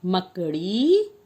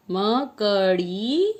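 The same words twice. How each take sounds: First: मकड़ी said slowly, each syllable apart; slow sounding out. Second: मकड़ी stretched even slower, ma-ka-ड़ी drawn out; very slow sounding out. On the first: Teacher slowly sounds out मकड़ी for children. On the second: Teacher stretches मकड़ी even slower for children. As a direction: draw मकड़ी out syllable by syllable. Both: Shown as a demonstration. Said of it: "अगला शब्द है".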